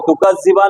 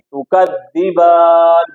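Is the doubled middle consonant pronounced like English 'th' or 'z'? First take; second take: z; th. First: The doubled consonant is a buzzing z sound. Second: The doubled consonant has the tongue tip between teeth. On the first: The speaker calls it wrong. "नहीं तुकज़्ज़िबान नहीं पढ़ेंगे" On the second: The speaker calls it right. "ज़बान की नोक बाहर आएगी"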